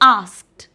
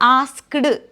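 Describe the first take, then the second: First: The ending is a plain 't' sound. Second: The ending is a separate 'ed' syllable. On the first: The speaker calls it right. "ടി ആണ് എന്നുള്ള രീതിയിൽ വായിക്കുക" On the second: The speaker calls it wrong. "ആസ്ക്ഡ് എന്ന് പറയരുത്"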